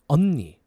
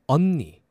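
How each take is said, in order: No difference in how they are said.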